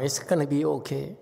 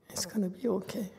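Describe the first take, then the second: First: Said in the usual way. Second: High, soft reassurance; soft, high and tender comfort; soothing. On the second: Real, not acted. Master comforting crying student.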